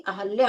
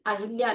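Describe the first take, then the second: First: अहल्या as "a-hal-yaa"; correct form without i. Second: अहिल्या as "a-hil-yaa"; wrong form with i. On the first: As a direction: say अहल्या with short a after h. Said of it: "अहल्या होता है". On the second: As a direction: say अहिल्या with short i after h. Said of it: "अहिल्या नहीं". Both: Shown as a demonstration.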